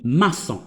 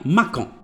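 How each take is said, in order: First: The middle consonant is a soft S sound. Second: The middle consonant is a hard K sound. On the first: The speaker calls it right. "كاين ماسون" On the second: The speaker calls it wrong. "غتقرا ليا ماكون ... ما كاينش حاجه سميتها ماكون"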